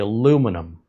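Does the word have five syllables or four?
four. It is said with four syllables, no extra i. This is the American way of saying it. "We as Americans, we say aluminum"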